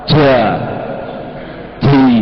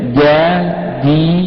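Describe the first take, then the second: First: The consonant is released with a breathy puff. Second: The consonant is released cleanly without breathiness. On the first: The speaker calls it wrong. "jangan kayak orang Jawa ... Itu juga salah. Itu itu hamas itu" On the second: The speaker calls it right. "Dia nggak ada hamasnya jim itu. Tapi ada beceknya saja"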